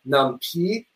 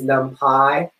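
First: The last syllable does not sound like 'pie'. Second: The last syllable sounds like 'pie'. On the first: The speaker calls it wrong. "That is disgusting, and it is wrong" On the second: The speaker calls it right. "Pi as in Python"

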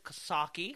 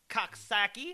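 First: It has the local pronunciation of the name. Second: It has the outsider pronunciation of the name. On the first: Natives of this side of the river say it this way. The speaker calls it right. "If you're a native of this side of the river" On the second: The speaker comes from across the river. The speaker calls it wrong. "I know I don't say that right"

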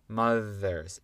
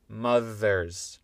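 The two takes are said the same way.

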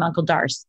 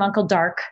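First: The name ends with an s sound. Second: The name ends with a k sound. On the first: This is the family's own way of saying it. "I call him Uncle Darce" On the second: This is how someone with another accent says it. "He calls him Uncle Dark"

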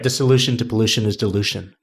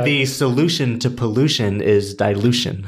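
First: The phrase is said at a normal pace. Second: The phrase is said slowly.

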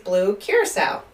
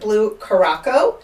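First: The name ends with a 'sow' sound. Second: The name ends with a 'co' sound. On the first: The speaker calls it right. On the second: The speaker calls it wrong.

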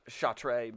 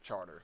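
First: It is said the French way, like 'shart'. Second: It is said like the English word 'charter'. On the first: This is how the spelling suggests it. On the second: This is how locals say it.

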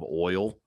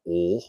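First: It is said with a standard accent. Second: It is said with a Southern accent. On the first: The speaker calls it right. "instead of oil" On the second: The speaker calls it wrong. "growing up in the South, like you hear like oil"

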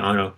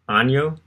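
First: The name is said with a plain n sound. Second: The name is said with a Spanish-like ny sound. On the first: The speaker calls it right. "We'll just say Anno" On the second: The speaker calls it wrong. "I'm thinking Spanish"

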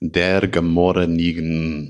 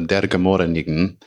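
First: It is said slowly. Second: It is said at normal speed.

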